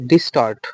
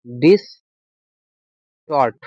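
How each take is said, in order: First: Said in the usual way. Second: distort split into "dis", long gap, "tort"; teacher breaking distort up for the class; slow dictation. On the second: Shown as a demonstration. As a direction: say distort very slowly in two separate parts. Teacher repeats word slowly to dictate.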